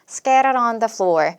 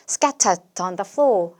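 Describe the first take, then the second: First: The t is flapped and the r is rolled. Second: The t is crisp and the r is dropped. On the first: "르처럼 다 굴리면서" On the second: "얼 발음은 빠지고 대신에 트 발음은 정확하게 살려서"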